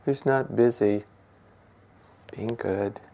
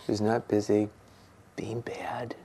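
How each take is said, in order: First: Said in the usual way. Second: Soft whispered echo of the line before. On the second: Shown as a demonstration. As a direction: drop to a near whisper on being bad. Repeats the phrase, second time whispered.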